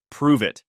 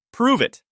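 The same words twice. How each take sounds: First: Said in the usual way. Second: High-pitched, forceful demand; insistent challenge. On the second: A narrator's reading. Repeated challenge after a startled "What?.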